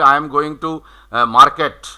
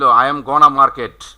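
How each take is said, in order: First: Said in the usual way. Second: "I am gonna market" with going to squeezed into "gonna"; shortcut pronunciation. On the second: Shown as a demonstration. Teacher giving the native shortcut, contracted "gonna". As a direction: join it up as GON-na in "gonna market". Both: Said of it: "ওরা shortcut বলে দিল".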